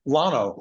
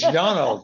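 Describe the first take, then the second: First: The word begins with an L sound. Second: The word begins with a Y sound. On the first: The speaker calls it wrong. "everybody else calls the road over here Lano" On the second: The speaker calls it right. "It's Yano, for God's sake"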